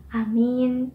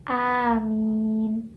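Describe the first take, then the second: First: "amin" with a stretched "ee" in the last syllable; long second vowel. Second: "amin" drawn right out, "aamiin"; both vowels lengthened. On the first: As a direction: hold the end vowel: "amiin". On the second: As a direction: stretch "amin" long on both syllables. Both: Shown as a demonstration. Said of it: "is different from".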